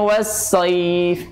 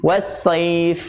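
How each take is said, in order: Both takes have the same delivery.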